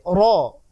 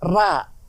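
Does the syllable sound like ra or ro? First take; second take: ro; ra. First: The vowel is a rounded, darker o sound. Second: The vowel is an open, unrounded a sound. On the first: The speaker calls it right. "tetapi ro" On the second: The speaker calls it wrong. "tidak ada huruf yang berbunyi ra"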